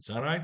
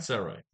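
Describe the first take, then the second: First: "Sound right?" rising at the end, asking; questioning tune. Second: "Sound right." falling and final; answering tune. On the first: Checking the plan with viewers, rising question. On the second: Answering himself to viewers, falling and firm. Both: Shown as a demonstration.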